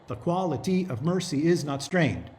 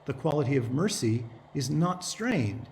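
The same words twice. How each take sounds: First: It hammers out a regular beat on alternate syllables. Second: It follows the natural stresses of everyday speech. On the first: The verse meter is followed slavishly. The speaker calls it wrong. "nobody playing Portia is going to say it that way" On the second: The meter underlies it but is not followed slavishly. The speaker calls it right. "What you will say is"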